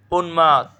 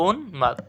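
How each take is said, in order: First: Said in the usual way. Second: উন্মাদ split as "un... mad"; correct pronunciation. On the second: Shown as a demonstration. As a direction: stop briefly after "un" in উন্মাদ. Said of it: "এটা সঠিক উচ্চারণ কি?". (উন্মাদকে "উন্... মাদ" ভেঙে উচ্চারণ)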